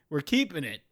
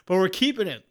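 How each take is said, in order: First: Said in the usual way. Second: Keeping it said louder and higher, stress on keeping; defiant emphasis. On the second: Real, not acted. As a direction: punch keeping in we're keeping it.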